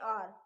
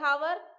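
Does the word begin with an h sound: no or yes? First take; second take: no; yes. First: The word starts with a vowel, no h. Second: The word starts with an audible h sound. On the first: This is how the word is spoken. "बोलने में आर" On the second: This is how the word is spelled. "वैसे हावर"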